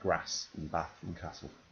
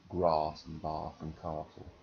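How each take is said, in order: First: The A vowels are short. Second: The A vowels are long. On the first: This is the speaker's own northern way. "I say grass and bath and castle. Uh, short A's" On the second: This is how some other people say it. "some people say"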